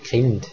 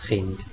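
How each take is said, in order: First: The word begins with an aspirated k sound. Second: The word begins with a rough ch sound. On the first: This is the Low Alemannic form. "anlautendes KH statt dem hochalemannischen CH" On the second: This is the High Alemannic form. "dem hochalemannischen CH"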